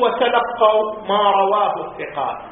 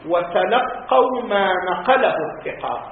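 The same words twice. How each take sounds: First: Contrasting quote, رواه picked out; stress on رواه. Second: Measured quote, نقله picked out; stress on نقله. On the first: Lecturer giving students the wording not used, stress on رواه. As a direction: lean on the word رواه. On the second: Lecturer citing the exact wording to students, stress on نقله. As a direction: lean on the word نقله. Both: Shown as a demonstration.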